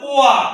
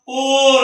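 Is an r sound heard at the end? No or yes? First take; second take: no; yes. First: It ends in a vowel glide without r. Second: It ends with a clear r sound. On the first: The speaker calls it right. "ఆర్ అని silent" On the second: The speaker calls it wrong. "పూర్ అని పలకూడదు"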